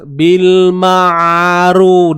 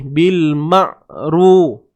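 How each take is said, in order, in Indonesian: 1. Suara mengalir bebas pada ain. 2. Suara ditahan pada ain. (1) "Kalau kita biarkan suaranya terlepas" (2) "biasanya orang tahan suara ni"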